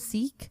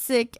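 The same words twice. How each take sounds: First: The vowel is long, like 'seek'. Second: The vowel is short, like 'sick'. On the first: This is the pronunciation Americans are used to. The speaker calls it wrong. "Americans are used to the pronunciation Sikh" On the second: This is the pronunciation Sikhs prefer. The speaker calls it right. "not with a double E"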